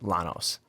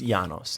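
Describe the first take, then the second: First: The double L is said as L. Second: The double L is not said as L. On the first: The speaker calls it wrong. "not Lanos" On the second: The speaker calls it right. "You don't say the L's. It's Llanos"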